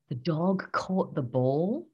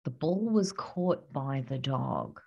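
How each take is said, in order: First: Said in the usual way. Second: Passive example. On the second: Shown as a demonstration. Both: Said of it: "Here's the difference".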